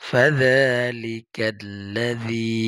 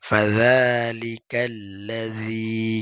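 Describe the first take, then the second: The two takes are said the same way.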